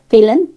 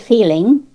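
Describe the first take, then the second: First: The final g sound is dropped. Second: The final g sound is pronounced. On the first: This is how Cornish people say it. "just feeling, wishing. We cut off that G" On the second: This is how others say it. "We don't say feeling"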